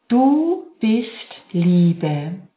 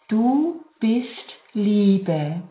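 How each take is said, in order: First: It is spoken at normal full loudness. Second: It is spoken more quietly, still voiced. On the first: "mit normal lauter Stärke"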